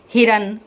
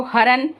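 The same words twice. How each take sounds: First: हिरन said with a short i in the first syllable, hi-ran; with the i sound. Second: हरन said with a plain short a, no i matra; without the i sound. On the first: Teacher to pupils, showing the word with the matra. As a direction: give हिरन its clear short i after the h. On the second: Teacher to pupils, showing the word without the matra. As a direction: say हरन as har-an, leaving out the i. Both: Shown as a demonstration. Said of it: "यहाँ पे ये देखो".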